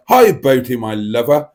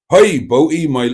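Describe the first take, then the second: First: Lightly voiced Liverpool girlfriend, loud start; second go at imitating the Liverpool girlfriend; a hint of a put-on girlfriend greeting. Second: Put-on loud, mistaken West Country-Welsh accent; botched girlfriend impression in a Welsh-Somerset accent; sounding like Tracy. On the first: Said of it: "Boaty's girlfriend from Liverpool is here". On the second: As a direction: aim for Liverpool and land in Welsh-Somerset. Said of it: "why she's sounding like Tracy there".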